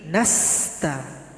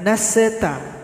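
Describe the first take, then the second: First: The s runs straight into the t. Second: An extra vowel is inserted after the s. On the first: The speaker calls it right. "tapi nasta" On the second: The speaker calls it wrong. "bukan naseta"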